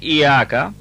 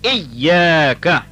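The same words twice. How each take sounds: First: The y sound is short and weakly stressed. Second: The y sound is doubled and strongly stressed. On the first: The speaker calls it wrong. "instead of saying Iyyaka" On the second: The speaker calls it right. "pronounced with a lot of strength and with a lot of vigor"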